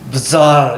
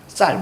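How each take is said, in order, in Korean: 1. 서로 다른 자음 소리 두 개가 단어를 시작해요. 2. 된소리 자음 하나가 단어를 시작해요. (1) "이렇게 읽으면 안 돼요" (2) "뒤에 거를 된소리로 읽는 거예요"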